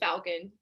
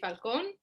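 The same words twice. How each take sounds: First: The name is said with an English pronunciation. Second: The name is said with a Spanish pronunciation. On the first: This is how American people say it. "if you're American"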